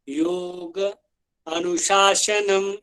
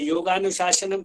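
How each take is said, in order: First: The two words are said separately. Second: The two words are run together. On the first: "तोड़ के बोले तो" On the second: "जैसे योगानुशासनम कहते हैं"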